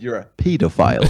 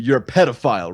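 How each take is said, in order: First: The word is said with a British pronunciation. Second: The word is said with an American pronunciation. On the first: "in England" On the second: "in America"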